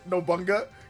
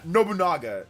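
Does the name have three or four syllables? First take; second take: three; four. First: The name is said with three syllables. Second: The name is said with four syllables. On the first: The speaker calls it wrong. "he mispronounced it" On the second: The speaker calls it right. "It's it's actually really easy"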